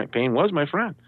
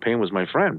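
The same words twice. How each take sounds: First: WAS pushed up high; stress on WAS. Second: Said in the usual way. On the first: Real, not acted. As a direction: lift "was" well above the other words. Repeats title, punching WAS.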